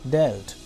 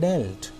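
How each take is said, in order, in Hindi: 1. स्वर छोटी e ध्वनि है। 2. स्वर छोटी e ध्वनि है।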